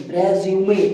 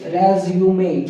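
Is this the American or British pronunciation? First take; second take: British; British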